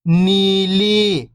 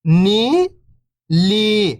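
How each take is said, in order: First: Whole word, level then falling at the end; syllables blended. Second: First syllable lifting, pause, second falling. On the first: Teacher showing beginners the joined word, syllables blended. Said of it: "तो मिलके बन जाएगा". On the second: Teacher breaking a word down for beginning readers, syllable by syllable. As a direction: sound out each syllable alone, long and separated. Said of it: "एक अक्षर का उच्चारण करके". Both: Shown as a demonstration.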